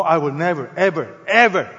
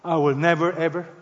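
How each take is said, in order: First: Each "ever" punched and set apart; emphatic double negative. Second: Said in the usual way. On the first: Shown as a demonstration. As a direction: hammer "never, ever, ever" one word at a time. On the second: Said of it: "It's called the double negative".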